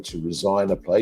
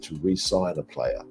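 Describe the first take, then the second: First: The word starts with a short 'rih' sound. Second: The word starts with a long 'ree' sound. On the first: The speaker calls it wrong. "you wouldn't say" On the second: The speaker calls it right. "you would say"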